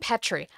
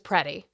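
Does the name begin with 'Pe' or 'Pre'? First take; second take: Pe; Pre. First: The name begins with 'Pe', no r sound. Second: The name begins with 'Pre', with an r sound. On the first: The speaker calls it wrong. "I completely was mispronouncing Alex's name" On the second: The speaker calls it right. "His last name is Preddy"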